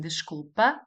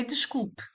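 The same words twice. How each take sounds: First: Desculpa ending in a clear open a; informal ending. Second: Desculpe with the final e barely said, like desculp; skated final e. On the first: Teacher contrasting informal desculpa with the formal one. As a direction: say desculpa with the final a fully voiced. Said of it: "instead of saying". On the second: Teacher modelling formal desculpe for learners. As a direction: clip the last e of desculpe almost away. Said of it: "Again, the E, you skate over it". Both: Shown as a demonstration.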